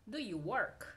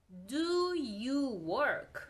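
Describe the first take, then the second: First: Said in the usual way. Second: Very slow, stretched DO YOU WORK; slow model question. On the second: Shown as a demonstration. Teacher models a question for learners, slowly. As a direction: draw out each word of "do you work".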